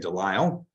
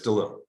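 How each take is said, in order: First: The second syllable has an 'eye' vowel sound. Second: The second syllable has no 'eye' vowel sound. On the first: The speaker calls it wrong. "why I often accidentally say Delisle" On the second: The speaker calls it right. "but it's DeLille"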